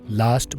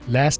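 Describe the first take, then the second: First: It is said in a British accent. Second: It is said in an American accent. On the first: "British" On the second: "American"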